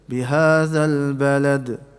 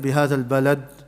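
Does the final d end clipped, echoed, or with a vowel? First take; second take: echoed; clipped. First: The final d has a slight echoing bounce. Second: The final d is clipped with no echo. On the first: The speaker calls it right. "No, in the middle" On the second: The speaker calls it wrong. "we won't recite it"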